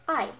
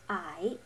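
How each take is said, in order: First: The word is said short and firmly. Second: The pitch dips down then rises. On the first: "pretty much just saying a word firmly" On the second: "you lower and raise your voice"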